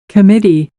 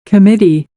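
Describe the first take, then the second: The two takes are said the same way.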